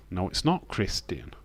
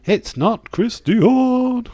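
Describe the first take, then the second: First: Said in the usual way. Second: Much higher, slow, louder drawl; mocking squeaky voice. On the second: Streamer teasing chat's wrong guess in a squeaky voice.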